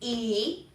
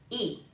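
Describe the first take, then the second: First: The pitch rises from mid to high. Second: The pitch is short and unmarked.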